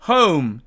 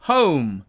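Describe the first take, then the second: Both takes have the same delivery.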